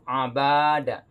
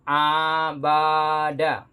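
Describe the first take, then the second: First: The first vowel is short; only the second is long. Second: The first vowel is also drawn out long. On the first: The speaker calls it right. "Jadi bacanya begitu" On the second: The speaker calls it wrong. "maka dia salah baca. Kenapa? Karena dipanjangkan juga huruf A-nya"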